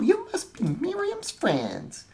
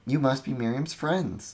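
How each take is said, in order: First: It is said in a put-on character voice. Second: It is said in the plain narrating voice. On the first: The speaker calls it right. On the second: The speaker calls it wrong.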